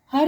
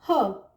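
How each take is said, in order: First: "हर" with the final r clearly pronounced; louder "हर", closing on an audible r; wrong, R sounded. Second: "ह" with a drawn central uh vowel, no r; British r-less her. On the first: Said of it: "हर नहीं". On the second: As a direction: say her as "ह", r silent. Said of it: "हमें बोलना है अ". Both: Shown as a demonstration.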